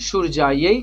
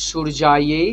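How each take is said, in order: Both takes have the same delivery.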